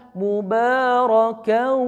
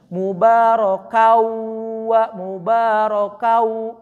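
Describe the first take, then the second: First: "mubarakau" with the held "kau" humming through the nose; slow "mubarakau", send the long ending into the nose; nasalised ghunnah. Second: Sung, "mubarakau" drawn out, final "kau" kept in the mouth; sung, slow "mubarakau" with an open oral "kauu", no nasalisation; without nasal hum. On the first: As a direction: draw out "mubarakau" with a nasal ring. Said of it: "Yang satu memasuk hidung". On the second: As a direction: chant "mubarakau" slowly, keeping the held ending out of the nose. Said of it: "yang satu mah nggak masuk hidung". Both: Shown as a demonstration.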